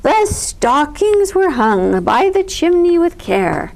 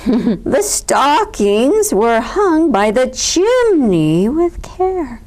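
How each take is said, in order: First: Grand recitation. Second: Slow, loud, heavily stressed recitation; louder, pointed. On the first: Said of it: "Bear continued". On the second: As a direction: repeat it louder to get attention. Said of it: "Bear repeated more loudly". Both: A narrator's reading.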